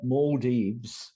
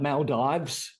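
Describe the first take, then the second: First: It is said with the local pronunciation. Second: It is said with an Australian pronunciation. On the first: "is the local pronunciation" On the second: "Us Aussies that talk about Maldives"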